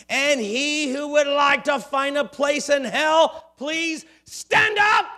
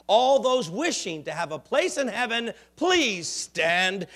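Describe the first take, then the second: First: Loud, rising preacher's shout. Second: Said in the usual way. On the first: Acted. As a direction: bellow it at the whole church. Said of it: "he shouted". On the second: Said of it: "He says to his congregation".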